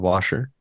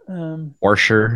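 First: Washer is said with no added r sound. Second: An r sound is added, like warsher. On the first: This is how people elsewhere say it. "Not a single R in that word" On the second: This is how people in the region say it. "Washer instead of washer"

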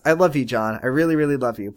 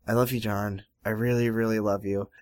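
First: It is said in a sincere, loving tone. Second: It is said grudgingly, as if rolling eyes.

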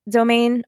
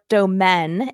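First: It is said with an English pronunciation. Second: It is said with a French pronunciation.

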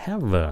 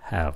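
First: The final v sound is strong. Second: The final v sound is light. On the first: The speaker calls it wrong. "đừng có phát âm nó là have" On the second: The speaker calls it right. "Cái âm V này rất là nhẹ"

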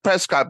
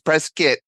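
First: The last syllable sounds like cot. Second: The last syllable sounds like kit. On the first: The speaker calls it wrong. "It looks like Prescott" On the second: The speaker calls it right.

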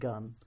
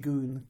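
First: The vowel is a short 'uh' sound. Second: The vowel is a long 'oo' sound. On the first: "I feel much more comfortable saying gun" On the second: "I'm forcing myself to use the Japanese pronunciation"

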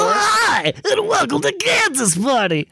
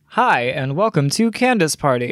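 First: It is said in a Watto character voice. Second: It is said in a plain, low-energy voice.

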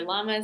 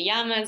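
First: It is said with an American pronunciation. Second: It is said with a Spanish-style pronunciation.

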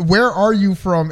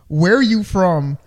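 First: It sounds like a sincere, friendly question. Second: It sounds menacing, like a threat.

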